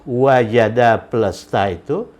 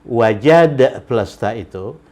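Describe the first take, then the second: Both takes have the same delivery.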